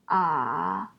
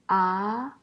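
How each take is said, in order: First: The pitch dips low, then rises. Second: The pitch rises from middle to high.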